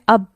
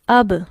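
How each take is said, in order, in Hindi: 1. अंतिम b बिना छोड़े बंद रखा जाता है। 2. अंतिम b झटके के साथ छोड़ा जाता है। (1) "मैंने होंठों को मिला लिया और होंठों को मिलाने के बाद मैंने उनको फ्री नहीं किया" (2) "तो ये लफ्ज किस तरह से अदा होंगे?"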